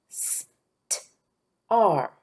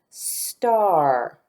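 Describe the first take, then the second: First: St-ar split into s, t, then long ar; sounded out. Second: Star said whole with a long ar; drawn-out word. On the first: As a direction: separate the sounds of st-ar with clear gaps. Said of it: "The sounds at the end". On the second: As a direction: stretch star slowly as one word. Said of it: "Listen, star". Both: Shown as a demonstration.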